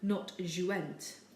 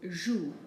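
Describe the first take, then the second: First: The ending of the word is pronounced. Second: The ending of the word is silent. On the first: The speaker calls it wrong. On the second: The speaker calls it right. "we do not pronounce it"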